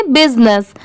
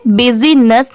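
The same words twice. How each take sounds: First: बिजनेस in two syllables, "biz-nes"; corrected pronunciation. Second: बिजीनेस in three syllables, "bi-zee-ness"; mispronunciation demo. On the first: Teacher correcting the misreading, बिजनेस as biz-nes. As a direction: say बिजनेस with no vowel after the z. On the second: Teacher showing learners the misreading, बिजीनेस as bi-zee-ness. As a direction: put an extra "ee" inside बिजीनेस. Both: Shown as a demonstration. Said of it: "इसे बिजीनेस नहीं पढ़ते".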